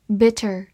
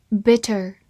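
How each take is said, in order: Both takes have the same delivery.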